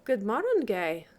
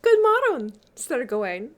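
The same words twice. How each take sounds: First: Blithe Gawain. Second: High, loud, lilting greeting in Middle English. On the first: Gawain answers the lady, blithe and measured. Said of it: "quoth Gawain the Blithe". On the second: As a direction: swoop down from a high, bright opening. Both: A narrator's reading.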